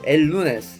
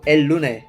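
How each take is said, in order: First: The s sound is pronounced. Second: The s sound is dropped.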